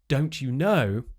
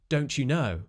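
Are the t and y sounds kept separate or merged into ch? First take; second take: separate; merged. First: The t and y sounds stay separate. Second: The t and y merge into ch.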